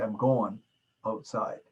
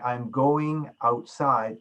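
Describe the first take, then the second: First: "going" said as "goin'", ending in a plain n; southern slang "goin'" for "going", G left off; dropped G. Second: "going" said slowly with its full -ing ending; fully pronounced "going". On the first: Teacher imitates southern students' slang, "going" with the G dropped. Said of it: "They drop the G at the end of going". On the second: Teacher shows students proper enunciation, "going" said in full. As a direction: sound out both syllables of "going", ending in -ing. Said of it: "Instead of saying". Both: Shown as a demonstration.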